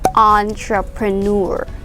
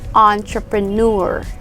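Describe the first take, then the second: No difference in how they are said.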